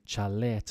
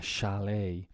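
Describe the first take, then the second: First: Chalet said "cha-LET" with a ch; Spanish-style pronunciation. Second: Chalet said "SHA-lay"; French-derived pronunciation. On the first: Retold or imitated. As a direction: say chalet with a hard ch as in chair. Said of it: "you say chalet for a house". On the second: Shown as a demonstration. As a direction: say chalet with sh and a silent t. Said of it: "Words borrowed from French".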